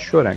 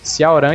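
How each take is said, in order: First: The name is said with a shortened Sho sound. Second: The name is said with the full Xiao sound. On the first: This is how someone else says it. "ele fala Shoran" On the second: This is the correct form of the name. "é Xiaoran"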